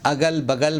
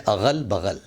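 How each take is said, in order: First: "اگل بغل" with hard g in both; plain g sounds in "اگل بغل"; mispronounced g for gh. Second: "اغل بغل" with throaty gh in both; careful back gh in "اغل بغل"; correct gh sound. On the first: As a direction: say "اگل بغل" as agal bagal. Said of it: "یہ لفظ ہے اغل بغل". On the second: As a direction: say "اغل بغل" as aghal baghal. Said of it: "یہ لفظ ہے". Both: Shown as a demonstration.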